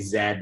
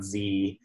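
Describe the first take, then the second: First: It is said the Canadian way, zed. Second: It is said the American way, zee.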